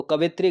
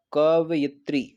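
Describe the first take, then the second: First: कवित्री shortened to "ka-vi-tri", no y; wrong pronunciation. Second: कवयित्री sounded out as "kav-yi-tri"; slow, careful कवयित्री with a clear y; correct pronunciation. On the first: Teacher reading out the misspelt word, कवित्री without y. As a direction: say कवित्री in three syllables, "ka-vit-ri". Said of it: "कवित्री गलत लिखा है". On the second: Teacher answering how it is written, careful "kav-yi-tri". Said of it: "कैसे लिखा जाता है". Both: Shown as a demonstration.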